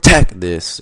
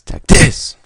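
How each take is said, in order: First: It is said flatly, without emotion. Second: It is said with excited emotion.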